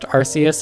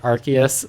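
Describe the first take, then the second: First: The first syllable does not sound like 'arc'. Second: The first syllable sounds like 'arc'. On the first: The speaker calls it wrong. "I totally thought Arceus was pronounced" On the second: The speaker calls it right. "pronounced it Arceus. ... it has an arc on it"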